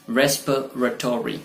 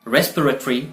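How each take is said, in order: First: "रेस्पिरेटरी" as "RES-puh-ruh-TOR-ee"; full "-tory" ending on "रेस्पिरेटरी"; second pronunciation variant. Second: "रेस्पिरेटरी" as "RES-puh-ruh-tree"; short "-tree" ending on "रेस्पिरेटरी"; first pronunciation variant. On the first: Teacher giving the alternative, full ending. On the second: Teacher giving the first of two options, shortened ending. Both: Shown as a demonstration. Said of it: "या".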